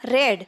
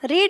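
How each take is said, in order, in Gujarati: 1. સ્વર ટૂંકો છે, 'red' ની જેમ. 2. સ્વર લાંબો છે, 'reed' ની જેમ. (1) "ભૂતકાળમાં રેડ એવો ઉચ્ચાર કરવો પડે છે" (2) "મૂળ રૂપ રીડ રહે છે"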